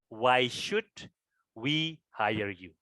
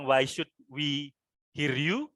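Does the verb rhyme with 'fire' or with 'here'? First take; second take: fire; here. First: The verb has the vowel heard in 'fire'. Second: The verb has the vowel heard in 'here'. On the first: The speaker calls it right. "Cara membacanya adalah" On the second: The speaker calls it wrong. "kalau seperti itu salah ya"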